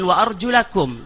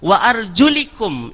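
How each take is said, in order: First: The vowel after 'arjul' is an 'a'. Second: The vowel after 'arjul' is an 'i'. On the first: The feet must be washed like the face. "Tadi baris fathah" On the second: The feet are only wiped like the head. "kemudian baris kasrah"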